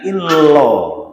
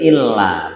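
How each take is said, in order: First: The final vowel is rounded toward o. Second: The final vowel is an open a sound. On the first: The speaker calls it wrong. "bukan illo" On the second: The speaker calls it right. "Berarti illa"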